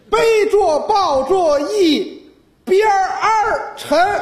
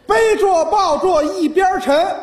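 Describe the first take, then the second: First: 一边 ends with an r-coloured erhua sound. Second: 一边 is said plain, without an r-sound. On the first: The line counts as eight characters. "儿化音，" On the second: The line counts as seven characters. "还是七个。"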